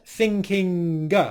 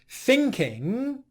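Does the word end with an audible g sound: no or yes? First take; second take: yes; no. First: It ends with an audible hard g sound. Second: It ends in ng with no g sound. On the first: The speaker calls it wrong. "not thinking, which is often what I hear non-native English speakers doing" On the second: The speaker calls it right. "he said the ng sound"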